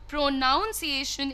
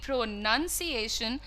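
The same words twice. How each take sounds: First: The second syllable sounds like 'nounce'. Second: The second syllable sounds like 'nun'. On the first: The speaker calls it wrong. "is incorrect" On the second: The speaker calls it right. "That's going to be"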